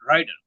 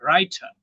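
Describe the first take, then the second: First: The middle t is a quick d-like tap. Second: The final r is dropped at the end. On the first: "একটা ডি এর মতো দ্রুতগামী টি" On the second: "আরটাই কেটে দেয়"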